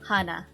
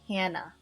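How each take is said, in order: First: The first vowel is an open ah, as in 'father'. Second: The first vowel is a flat A, as in 'cat'. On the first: This is the original birth pronunciation of the name. "So this is my birth pronunciation name" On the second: This is how Americans say the name. "The Americans pronounce my name as Hannah"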